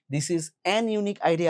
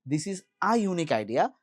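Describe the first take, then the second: First: The wrong article "an" leaned on before unique; stress on AN. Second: Article "a" said as a separate long "aa" before unique; stress on A. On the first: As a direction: punch "an" in This is an unique idea. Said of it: "আর বলা যাবে না". ("an"-এ জোর দিয়ে ভুল রূপটা দেখানো) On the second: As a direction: set off "a" clearly in this is a unique idea. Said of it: "বলতে হবে". ("a"-কে আলাদা করে স্পষ্ট "আ" উচ্চারণ) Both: Shown as a demonstration.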